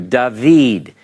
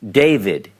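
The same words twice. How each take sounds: First: The name is pronounced the Hebrew way. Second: The name is pronounced the English way. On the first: "in Hebrew" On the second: "The name David"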